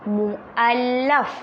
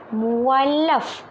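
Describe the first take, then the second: First: A glottal stop separates the u and a. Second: The u and a run together smoothly. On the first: The speaker calls it right. "sebutan dia apa" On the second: The speaker calls it wrong. "bukan muallaf"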